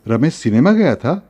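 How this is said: It is said as a question. It asks whether he went to the cinema.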